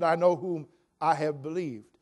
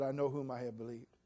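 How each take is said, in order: First: Said in the usual way. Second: Softly quoted. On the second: Retold or imitated. Quoting Paul.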